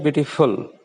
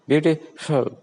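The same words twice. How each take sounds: First: "beautiful" with Hindi ph replacing the f; Hindi-influenced mispronunciation. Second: "beautiful" with a true English f; English f sound. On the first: Teacher showing learners the mistake, Hindi ph in "beautiful". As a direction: say "beautiful" with both lips closing on the f. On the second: Teacher modelling for Hindi speakers, English f in "beautiful". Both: Shown as a demonstration. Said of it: "It's not beautiful".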